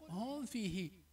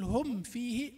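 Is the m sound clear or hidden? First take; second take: hidden; clear. First: The m is hidden and blends into the f. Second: The m is clearly closed before the f. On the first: The speaker calls it wrong. "ولا تقل هم فيه" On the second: The speaker calls it right. "تقول هم فيه"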